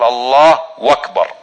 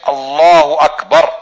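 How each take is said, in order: First: A 'w' sound is added between the two words. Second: The two words join with no added 'w' sound. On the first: The speaker calls it wrong. "يضع حرف الواو بين الله وبين أكبر" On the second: The speaker calls it right. "تخبر عن الله بأنه أكبر"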